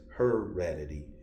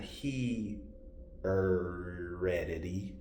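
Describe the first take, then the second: First: The first syllable sounds like 'her'. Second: The first syllable sounds like 'he'. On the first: The speaker calls it right. "it's heredity" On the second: The speaker calls it wrong. "It's not he heredity"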